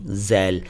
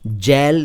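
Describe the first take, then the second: First: The word begins with a 'z' sound. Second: The word begins with a 'j' sound. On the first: The speaker calls it right. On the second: The speaker calls it wrong. "जैल नहीं"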